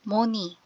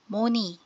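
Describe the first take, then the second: Both takes have the same delivery.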